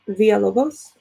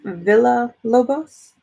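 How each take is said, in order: First: The double L sounds like a Y. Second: The double L sounds like an L. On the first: "in Spanish you say that like a Y sound. So I have been saying it that way" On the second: "it looks like Villa Lobos in English because it has two L's"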